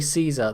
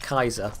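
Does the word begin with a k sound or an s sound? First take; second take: s sound; k sound. First: The word begins with an s sound. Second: The word begins with a k sound. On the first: The speaker calls it wrong. "that is actually pronouncing it wrong" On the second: The speaker calls it right. "It is basically pronounced Kaiser"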